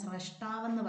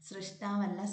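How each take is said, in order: First: The first syllable is said with 'ra'. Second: The first syllable is said with 'ri'. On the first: The speaker calls it right. "സ്രഷ്ടാവെന്ന് പറഞ്ഞു പഠിക്കുക" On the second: The speaker calls it wrong.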